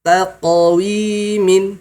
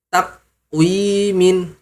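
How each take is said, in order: First: The q-sound has a short echoing bounce. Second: The q-sound stops flat with no bounce. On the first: The speaker calls it right. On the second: The speaker calls it wrong. "tidak ada qalqalah"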